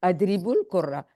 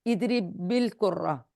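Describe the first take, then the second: First: अदरिबुल कुर्रा joined with a short "u" after the b; linking pesh. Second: Slow इदरिबिल कुर्रा, joined with a short "i" after the b; linking zer. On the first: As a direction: link अदरिबुल कुर्रा through "-bul". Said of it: "इनमें पेश होती है". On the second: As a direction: link इदरिबिल कुर्रा through "-bil". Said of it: "ये मिलाने के लिए जेर लगी है". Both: Shown as a demonstration.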